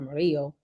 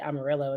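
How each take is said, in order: First: The name is said with Spanish sounds. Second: The name is said with English sounds. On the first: The speaker calls it right. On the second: The speaker calls it wrong.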